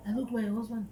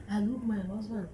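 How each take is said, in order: Both takes have the same delivery.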